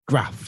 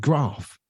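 First: It has a short northern-style 'gruff' vowel. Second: It has a long posh-style 'grahf' vowel.

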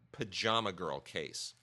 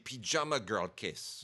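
First: Pajama is said in a plain English way. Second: Pajama is said with a French-sounding accent.

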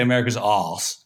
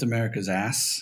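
First: It is said in a non-American accent. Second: It is said in an American accent. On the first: "if I say America's ass, half your people won't understand" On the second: "That was my American accent"

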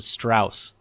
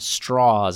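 First: The name is said in a non-southern pronunciation. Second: The name is said in its southern pronunciation. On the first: This is how others say the name. The speaker calls it wrong. "as opposed to" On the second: This is how the name's bearer says it. The speaker calls it right. "he corrects Oppenheimer on the pronunciation of his surname"

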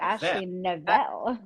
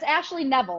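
First: The surname gets a fancy, classy-sounding pronunciation. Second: The surname is said plainly, like Neville. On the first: The speaker calls it wrong. "You say Nivelle, and I think it sounds very classy" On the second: The speaker calls it right. "But it's Ashley Neville, like Neville Longbottom"

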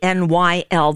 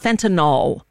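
First: The last syllable ends with a 'nil' sound. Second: The last syllable ends with a 'nol' sound. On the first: The speaker calls it right. "It's fentanyl" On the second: The speaker calls it wrong. "There's no O in fentanyl. It's not fentanyl"

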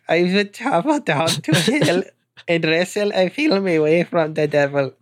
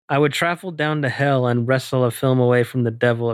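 First: It is read in a silly, hard-to-understand put-on voice. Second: It is read in a clear, natural speaking voice. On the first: The speaker calls it wrong. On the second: The speaker calls it right.

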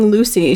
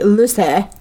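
First: The name is said in a plain, ordinary accent. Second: The name is said in an odd, imitated accent. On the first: "instead of saying Lucy" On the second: "she would say, like, Lucy"

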